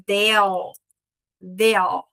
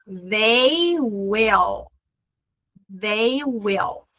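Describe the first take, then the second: First: "they'll" as one syllable with a dark L; contracted they'll. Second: Said in the usual way. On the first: Shown as a demonstration. Teacher showing students the they'll contraction. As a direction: blend they into a dark L, short. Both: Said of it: "Quando eu vou contrair".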